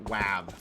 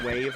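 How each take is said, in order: First: The vowel sounds like the one in 'cat'. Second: The vowel sounds like the one in 'day'. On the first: This is the funnier, preferred personal pronunciation. "I like pronouncing it wav" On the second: This is the accepted standard pronunciation. "I know it's wave"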